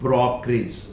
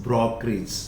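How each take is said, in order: Both takes have the same delivery.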